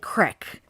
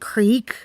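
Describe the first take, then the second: First: The word has a Pittsburgh regional pronunciation. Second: The word has a general American pronunciation. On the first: "we say crick" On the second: "instead of saying creek"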